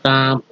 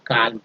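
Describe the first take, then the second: First: काम with no L sound; silent L. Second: काल्म with the L pronounced; wrongly sounded L. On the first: Teacher showing the silent L, काम with no L. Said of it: "एल जो है silent है". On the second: Teacher showing the mistake, काल्म with an audible L. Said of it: "not कि काल्म". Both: Shown as a demonstration.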